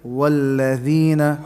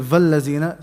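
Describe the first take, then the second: First: The word begins with a w sound. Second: The word begins with a v sound. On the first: The speaker calls it right. "Say walladhina" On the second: The speaker calls it wrong. "don't say vallazina"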